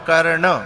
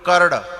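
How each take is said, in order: First: The final consonant is nasal, through the nose. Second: The final consonant is oral, without nasal sound. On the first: The speaker calls it right. "नाक का, नाक के स्वर से, और शुद्ध है कर्ण" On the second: The speaker calls it wrong. "अब इसमें नाक का स्वर नहीं आया"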